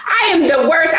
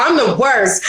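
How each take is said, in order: First: "I am" stretched out and pushed up; "I am the worst" with the weight on "am"; stress on I am. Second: Said in the usual way. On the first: Real, not acted. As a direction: lean on "I am" to insist. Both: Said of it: "I'm the hardest on myself".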